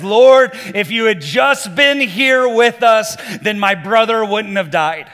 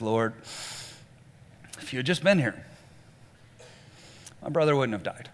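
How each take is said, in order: First: Loud, higher, accusing cry at Jesus; angry accusation. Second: Softer, lower, numb and grieving; numb echo. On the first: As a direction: hurl the blame at him, loud and slow. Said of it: "starts yelling at Jesus". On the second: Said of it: "She just kinda echoes her sister". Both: Retold or imitated.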